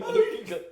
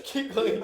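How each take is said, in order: First: Laughing. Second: Said in the usual way. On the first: Real, not acted. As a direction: pitch jumps up as laughter breaks through. Second take breaks into laughter.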